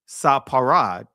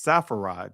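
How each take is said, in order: First: The middle consonant is a hard P sound. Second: The middle consonant is a soft F sound. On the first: This is the original pronunciation without the Greek sound. "It was a hard P" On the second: This is the later pronunciation with the Greek sound. "they did not have a ph sound"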